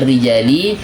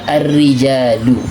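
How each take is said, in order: First: The word ends with an i vowel. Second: The word ends with a u vowel. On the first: "Tidak boleh dibaca ar-rijali" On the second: "tidak boleh dibaca ar-rijalu"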